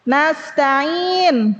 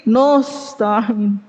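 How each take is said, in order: First: "Nasta'in" with light open a, long final vowel; thin nun. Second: "nusta'in" with a heavy rounded o after n; thickened nun. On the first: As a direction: keep "Nas" light in "Nasta'in". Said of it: "Ditebelin jadi nusta'in". ("Nasta'in" tipis, a terbuka) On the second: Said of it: "Ditebelin jadi". ("nusta'in" ditebalkan, na jadi no) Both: Shown as a demonstration.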